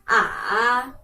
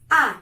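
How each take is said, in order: First: The pitch dips down and then rises again. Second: The pitch falls sharply from high to low. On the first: "dari atas turun ke bawah dan naik lagi ke atas" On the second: "nadanya dari atas turun lagi ke bawah"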